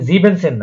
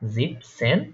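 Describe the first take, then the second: First: The word is said with three syllables. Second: The word is said with two syllables. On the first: The speaker calls it wrong. "জিবেনসেন না কিন্তু" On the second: The speaker calls it right.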